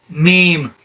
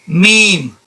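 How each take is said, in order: The two takes are said the same way.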